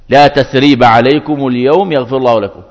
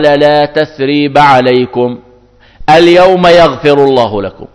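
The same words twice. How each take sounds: First: The pause comes after the word al-yawm. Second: The pause comes before the word al-yawm. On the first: It is a prayer asking for forgiveness. "هذا دعاء بالمغفرة لهم" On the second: It is a statement that forgiveness is granted today. "الوقف على لا تثريب عليكم"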